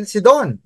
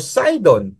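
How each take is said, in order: First: "Sidon" with an ee in the first syllable; Sidon as "See-don". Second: "Sidon" with a long English i; Sidon as "Sigh-don". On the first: Gives two readings of the name. (bigkasin ang "Sidon" na "Si-don") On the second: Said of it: "o Sidon". (bigkasin ang "Sidon" na "Say-don") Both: Shown as a demonstration.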